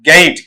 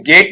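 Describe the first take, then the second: First: गेट with a gliding vowel, "ge-it"; corrected pronunciation. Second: गेट with a single long "e", "get"; common mispronunciation. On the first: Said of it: "बल्कि क्या पढ़ा जाएगा आपका?". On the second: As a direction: say गेट with one pure vowel. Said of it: "गेट नहीं पढ़ा जाता". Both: Shown as a demonstration.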